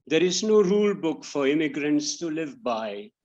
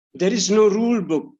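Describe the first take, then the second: First: Said in the usual way. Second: Higher, louder false start of the line. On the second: Real, not acted. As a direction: blurt the line too early, then stop. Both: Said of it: "sorry, six".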